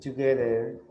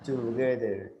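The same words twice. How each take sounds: No difference in how they are said.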